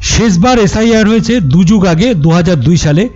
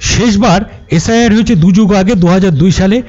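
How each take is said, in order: No difference in how they are said.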